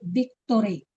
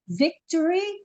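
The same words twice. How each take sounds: First: The word begins without a V sound. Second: The word begins with a V sound.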